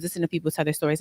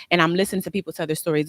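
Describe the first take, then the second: First: Repeated much softer, trailing away; soft echo. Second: Said in the usual way. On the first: Real, not acted. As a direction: murmur the repeat as if to yourself.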